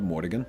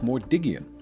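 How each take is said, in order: First: The name ends with a short 'gan' sound. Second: The name ends with an extra 'ee-an' sound. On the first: The speaker calls it wrong. "Not Mordigan" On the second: The speaker calls it right. "No, it's Mordigian"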